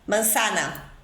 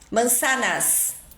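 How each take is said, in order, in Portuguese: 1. O s final é apagado. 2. O s final é pronunciado.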